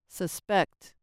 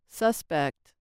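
First: The stress is on the second syllable. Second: The stress is on the first syllable. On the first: It is a verb. "and on the second syllable, they act as verbs" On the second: It is a noun. "With stress on the first syllable, the following words act as nouns"

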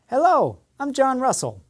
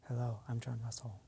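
First: The voice is loud and high in volume. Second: The voice is quiet and low in volume. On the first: The speaker sounds confident. The speaker calls it right. "My speaking was much louder and much more confident" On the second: The speaker sounds unsure. The speaker calls it wrong. "Did that sound confident? No, my volume was low"

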